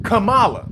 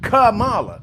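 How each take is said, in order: First: The stress is on the first syllable. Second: The same.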